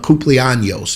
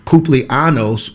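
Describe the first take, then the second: First: The middle consonant is a palatal 'ny' sound. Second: The middle consonant is a plain 'n' sound. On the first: It means happy birthday. The speaker calls it right. "that's happy birthday" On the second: It means happy anus. The speaker calls it wrong. "would be happy anus"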